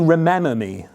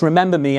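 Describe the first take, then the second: First: The word is said without a b sound. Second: The word is said with a b sound. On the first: This is the form expected from the Latin root. "This should be remember me" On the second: This is the actual English form. "It's not, it's remember me"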